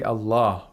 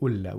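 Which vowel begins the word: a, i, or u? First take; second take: a; u. First: The word begins with an 'a' vowel. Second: The word begins with a 'u' vowel. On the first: The speaker calls it right. "the word Allah has a fatha" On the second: The speaker calls it wrong. "we don't say Ulla"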